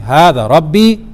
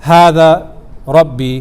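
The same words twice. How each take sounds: First: "Hada Rabbi" rising at the end on "Rabbi"; questioning tune. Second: "Hada Rabbi" drawn out slowly as a flat statement; slow declarative "Hada Rabbi"; wrong statement reading. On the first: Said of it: "as a kind of question". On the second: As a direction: say "Hada Rabbi" as if stating a fact. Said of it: "what he's saying is not". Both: Shown as a demonstration.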